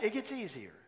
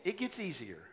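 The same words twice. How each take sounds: First: "it" hit first, then falling; stress on it. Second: "gets" leaned on, falling at the end; stress on gets. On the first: Pastor repeating the promise, stress on "it". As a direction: open hard on "it" to drive it home. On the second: Pastor urging the congregation, stress on "gets". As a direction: press the word "gets" to encourage. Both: Shown as a demonstration.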